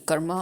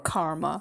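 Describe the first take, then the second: First: It is said with a non-Western original pronunciation. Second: It is said with a Western English pronunciation. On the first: The speaker calls it right. "but it's actually karma or karam" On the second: The speaker calls it wrong. "the people who do not know how to pronounce it properly in the West, they call it karma"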